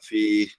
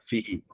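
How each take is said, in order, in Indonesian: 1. Kata itu dipotong pendek, satu suku kata. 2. Kata itu diucapkan penuh, dua suku kata. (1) "bila kita berhenti jadi fi" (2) "Fi tu maksudnya fihi lah"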